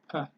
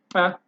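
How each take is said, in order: First: The p is soft, with plain air. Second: The p is hit hard and explosive. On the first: "it's just not voiced. You just push air through" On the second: "you hit you hit it really hard, and you create um, an explosive"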